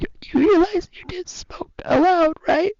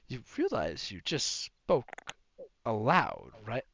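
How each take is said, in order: First: It is read in a put-on character voice. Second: It is read in an ordinary voice.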